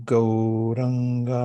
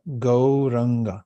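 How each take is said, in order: First: Gauranga said slowly, syllable by syllable as GOW-RAN-GA; careful mantra demo. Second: Said in the usual way. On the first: Shown as a demonstration. Teacher showing the class how to say Gauranga slowly. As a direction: draw out Gauranga gently and evenly. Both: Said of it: "as in Gauranga".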